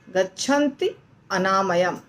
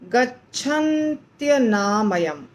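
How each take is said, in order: First: The two words are said separately. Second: The two words are fused into one. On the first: "पर हमें इसको कैसे बोलना है" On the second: "गच्छन्त्यनामयम ऐसा है"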